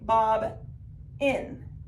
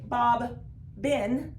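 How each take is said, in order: First: The middle b sound is said once. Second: The middle b sound is said twice. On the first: The speaker calls it right. "we say Bob in. Only one of the letters makes a sound" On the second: The speaker calls it wrong. "we don't say Bob bin"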